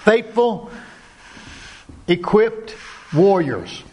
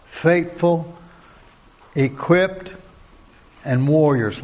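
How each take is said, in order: First: Faithful pitched high, equipped warriors slow and weighty; emphatic proclamation. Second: Said in the usual way. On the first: Shown as a demonstration. Preacher rallying the men, slow emphatic proclaiming. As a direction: proclaim each word as a battle cry.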